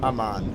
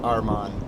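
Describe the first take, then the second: First: The middle of the name has a plain m sound. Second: The middle of the name has an r-m sound. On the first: The speaker calls it right. "It's Amman, Jordan. Amman" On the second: The speaker calls it wrong. "not Arman. I read it wrong"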